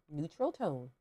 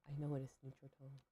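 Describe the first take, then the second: First: "neutral tone" lifted as if asking; questioning tone. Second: Said in the usual way. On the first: Real, not acted. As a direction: say "neutral tone" unsure, pitch jumping like a question. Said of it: "said that like it was a question". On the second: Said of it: "I don't know why I said that like it was a question".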